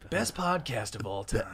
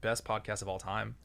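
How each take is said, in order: First: It is said in a dramatic movie-trailer voice. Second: It is said in a normal speaking voice.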